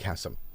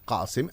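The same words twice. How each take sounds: First: The name is said with an English pronunciation. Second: The name is said with an Arabic pronunciation. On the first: "But if you're speaking in English, then Qasim" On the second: "if you're speaking in Arabic, then Qasim, as you say, is correct"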